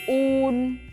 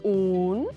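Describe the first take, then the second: First: The pitch stays level throughout. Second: The pitch starts mid and rises sharply.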